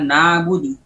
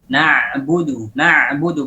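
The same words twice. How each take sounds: First: Na'budu with a weak, light ain; wrong way. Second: Right way; correct ain. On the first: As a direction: let the ain of na'budu go flat. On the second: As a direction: slowly press the ain of na'budu. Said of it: "Seharusnya dibaca". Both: Shown as a demonstration.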